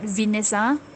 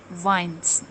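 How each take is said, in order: First: The word is said as 'Venesa'. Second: The word is said as 'vines'. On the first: The speaker calls it wrong. "it's not Venesa" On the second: The speaker calls it right. "but it's vines"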